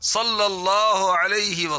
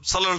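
First: The phrase is said slowly and carefully. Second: The phrase is rushed and said quickly. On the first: The blessing is recited properly to earn reward. The speaker calls it right. "درود پڑھتا ہے تو ٹھیک سے پڑھ" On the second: The blessing is recited carelessly in haste. The speaker calls it wrong. "یا پڑھتے ہوئے"

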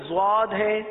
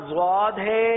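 Both takes have the same delivery.

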